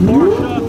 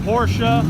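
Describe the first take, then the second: First: High delighted squeal of the name "Porsche", rising; excited squeal. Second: Said in the usual way. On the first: Real, not acted. Host sees arriving Porsche, squeals its name excitedly. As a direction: squeal "Porsche" with glee, much higher and louder.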